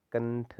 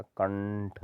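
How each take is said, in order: First: कंठ with a plain n, "kan-th"; wrong dental n. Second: कंठ with a long curled-tongue ṇ; retroflex ण feel. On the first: Teacher showing the wrong nasal, कंठ with plain n. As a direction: say कंठ with flat-tongued n. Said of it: "नहीं होता". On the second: Teacher wanting ण felt in the sound, कंठ with held retroflex nasal. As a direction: draw out the ण inside कंठ. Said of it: "ण वाली feeling आनी चाहिए". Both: Shown as a demonstration.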